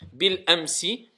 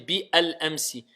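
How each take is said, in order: First: The 'bi' runs straight into the 'l' sound. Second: The article 'al' is said as a separate syllable. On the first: The speaker calls it right. "quand on veut faire la liaison avec alif lam, directement on passe au lam" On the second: The speaker calls it wrong. "on n'a pas dit bi al amsi"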